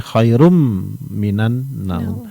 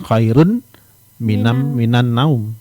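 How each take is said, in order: First: The n merges into a nasal m sound. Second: The n sound is kept before the m. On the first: The speaker calls it right. "tapi khairum minan naum" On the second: The speaker calls it wrong.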